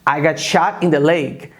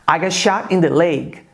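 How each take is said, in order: No difference in how they are said.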